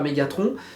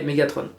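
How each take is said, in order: First: The name is pronounced the French way. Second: The name is pronounced the English way. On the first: The speaker calls it wrong. "je dirais pas Megatron" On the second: The speaker calls it right. "je dirais Megatron"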